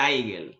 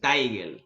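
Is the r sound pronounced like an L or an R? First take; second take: L; L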